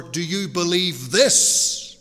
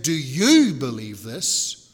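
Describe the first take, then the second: First: "Do you believe this?" with believe pushed louder, slow rise; stress on BELIEVE. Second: "Do you believe this?" with YOU punched louder and drawn out; stress on YOU. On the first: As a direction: hit "believe" hard and let it rise. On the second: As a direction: lean hard on "you", slow and rising. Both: Shown as a demonstration. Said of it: "where you put the emphasis".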